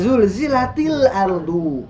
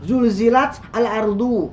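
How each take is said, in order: First: The t links to the next word with i. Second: The t stops before a separate al. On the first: The speaker calls it right. "Idza zulzilatil ardu" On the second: The speaker calls it wrong. "Susah ya enggak? ... Asalnya zulzilat al-ardu"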